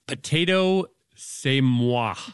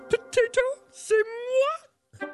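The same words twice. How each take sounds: First: It is said in a normal speaking voice. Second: It is said in a Miss Piggy voice.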